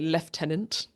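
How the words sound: It is said with a British pronunciation.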